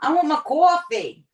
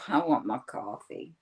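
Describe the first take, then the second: First: It is said in a cheerful, pleasant tone. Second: It is said in a grumpy, irritable tone. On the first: The person is in a good mood. "When she's in a good mood" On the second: The person is in a bad mood. "And other times it's"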